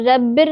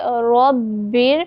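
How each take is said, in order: First: The first r sound is thin and light. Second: The first r sound is thick and heavy. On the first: The speaker calls it wrong. "इसको हम रब्बिर नहीं पढ़ेंगे" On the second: The speaker calls it right. "बल्कि हम पढ़ेंगे रब्बिर"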